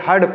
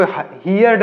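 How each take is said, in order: First: Heard said short as "hurd", one syllable; correct pronunciation. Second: Heard said as "hiyard", two syllables with a y glide; wrong pronunciation. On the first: Teacher giving students the right way, heard as "hurd". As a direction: heard clipped to a single "herd" sound. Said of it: "heard पढ़ेंगे". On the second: Teacher showing students the wrong way, heard as "hiyard". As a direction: heard stretched into "hee-yerd". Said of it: "इसको heard नहीं पढ़ेंगे". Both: Shown as a demonstration.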